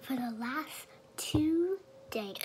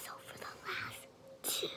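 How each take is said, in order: First: Suddenly voiced, slow and louder; talking out loud. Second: Hushed, breathy retake; whispering. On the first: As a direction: slips out of the whisper into full voice. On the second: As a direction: back to a soft whisper. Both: Real, not acted. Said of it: "I don't know why I'm talking loud".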